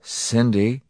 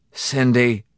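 First: Gentle, slightly raised, questioning name. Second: Raised, loud, falling call; miserable call. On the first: Husband coming to his sobbing wife, gently. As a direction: approach her tenderly. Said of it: "he said gently". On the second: Husband calling to his captive wife, miserably. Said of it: "Morrison called miserably". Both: A narrator's reading.

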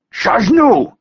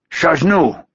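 First: Louder, higher demanding shout. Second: Foreign guard calling out; called out. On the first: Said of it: "the man demanded again". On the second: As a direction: call out the challenge. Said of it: "the man called out". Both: A narrator's reading.

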